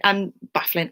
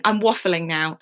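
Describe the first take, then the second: First: "baffling" said with a B, by mistake; slip of the tongue. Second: "waffling" said clearly with a W; corrected word. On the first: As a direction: trip into "baffling" instead of waffling. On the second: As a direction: fix the slip, landing on "waffling". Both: Shown as a demonstration.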